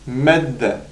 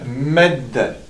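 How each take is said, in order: The two takes are said the same way.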